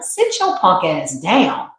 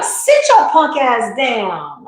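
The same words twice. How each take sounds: First: Slow, firm put-down; lightly voiced, a mild stern scold; stern higher self. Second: Very slow, higher, drawn-out sassy command; sassy higher self. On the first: Higher self shutting down the worried self, slow and firm. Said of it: "This is how my higher self talks". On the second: Retold or imitated. Higher self telling the reader to sit down, very slow and sassy. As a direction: stretch every word like a diva telling you off. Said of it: "She be like".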